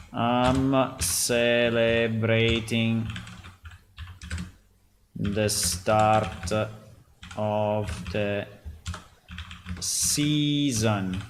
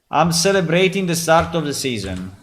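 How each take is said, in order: First: Slow, word by word while typing; slow dictation. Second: Excited pitch. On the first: Real, not acted. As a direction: spell it out slowly as you type. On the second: Acted. Announcing sale to other players.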